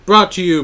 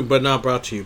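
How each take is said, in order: First: Loud mock ad read; sponsor announcer voice. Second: Said in the usual way.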